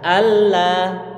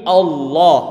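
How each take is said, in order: First: The L sound is light and thin. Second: The L sound is heavy and thick. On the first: The speaker calls it wrong. "nggak boleh dibaca Allah" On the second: The speaker calls it right. "tapi Allah"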